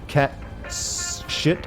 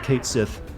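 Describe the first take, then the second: First: The first word sounds like 'cat'. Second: The first word sounds like 'Kate'. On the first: "Some people have said it's pronounced like cat shit almost" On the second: "I've always pronounced it Kate Sith"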